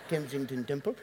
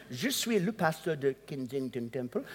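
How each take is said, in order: First: Said in the usual way. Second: Kensington Temple said with French vowels, Ken-sing-ton Tem-ple softened; French accent. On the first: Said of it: "the only thing I think I said in a French accent". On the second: Retold or imitated. Pastor names his church to a French speaker, French accent. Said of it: "I said in a French accent".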